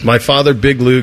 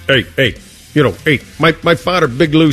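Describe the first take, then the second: First: It is read in the speaker's normal voice. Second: It is read in a put-on character voice.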